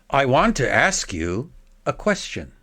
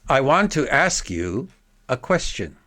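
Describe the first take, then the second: Both takes have the same delivery.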